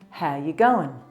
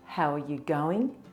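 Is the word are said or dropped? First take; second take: dropped; said. First: The word are is dropped entirely. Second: The word are is clearly said.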